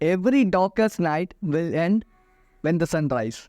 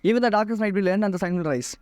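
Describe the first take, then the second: First: The sentence is said slowly with pauses. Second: The sentence is said quickly without pauses. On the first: The message comes across clearly. The speaker calls it right. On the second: It sounds like reciting something memorized. The speaker calls it wrong.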